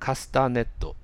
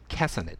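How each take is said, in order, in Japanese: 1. 日本語のカタカナの音節で言われています。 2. 英語の音で、弱いtを使って言われています。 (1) "カスタネットではなく" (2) "カスタネットって言います"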